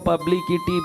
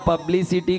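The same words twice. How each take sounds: First: The word is pronounced in a distorted way. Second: The word is pronounced in the standard way. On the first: The speaker calls it wrong. "बोले" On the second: The speaker calls it right. "दादा पब्लिसिटी को"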